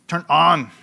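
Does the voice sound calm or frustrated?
frustrated. It is said in a frustrated voice.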